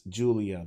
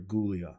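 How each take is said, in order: First: The name begins with a soft J sound. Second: The name begins with a hard G sound. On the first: This is how everyone says her name. "I know it's Julia" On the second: It follows the spelling and sounds like ghoul. "she fights like a ghoul, so I'm calling her Gulia"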